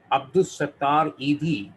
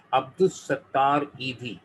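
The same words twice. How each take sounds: The two takes are said the same way.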